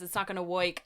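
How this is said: It is said in a put-on New Jersey accent. "He says"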